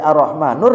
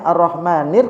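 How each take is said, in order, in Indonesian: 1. Kata itu berakhir dengan bunyi 'ur'. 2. Kata itu berakhir dengan bunyi 'ir'. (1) "kok jadi Ar-Rahmanur ya" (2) "kok dia kayaknya Ar-Rahmanir"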